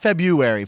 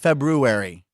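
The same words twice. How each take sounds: First: The first r is left out. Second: The first r is clearly sounded. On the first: The speaker calls it wrong. "Not February" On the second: The speaker calls it right. "Febrew. Brew, bro"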